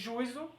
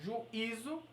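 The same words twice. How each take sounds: First: The u and i blend into one syllable. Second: The i forms its own stressed syllable. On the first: "se fosse juízo, ditongo" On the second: "hiato, porque o i está sozinho"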